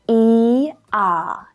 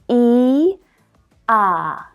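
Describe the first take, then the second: First: The two vowels are said quickly in succession. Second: The two vowels are said slowly and separately. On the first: "if we do that really quickly right now" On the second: "we need to move our mouth quite a bit between these two vowel sounds"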